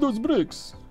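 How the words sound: It is said in a put-on Russian accent. "you can say it in like Russian accent"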